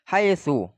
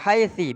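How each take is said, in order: First: The word ends in an u vowel. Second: The word ends in an i vowel. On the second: "bil kasri"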